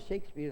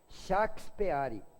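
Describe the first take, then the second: First: The name is said with English sounds. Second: The name is read out with Portuguese sounds. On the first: This is how everyone says it. "Todo mundo fala Shakespeare" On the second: Foreign words are said as if they were native words. "não falava na língua deles, falava na nossa"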